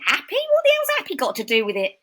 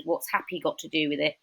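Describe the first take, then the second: First: Loud, high, incredulous Cockney outburst; Cockney nan. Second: Said in the usual way. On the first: Retold or imitated. Cockney nan answering granddaughter who quit a soap, incredulous. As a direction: scoff it like an indignant Cockney grandmother. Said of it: "my Cockney nan". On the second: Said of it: "There's something I'm writing at the moment".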